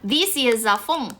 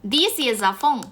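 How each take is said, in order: First: The word 'this' has a long ee vowel. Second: The word 'this' has a long ee vowel.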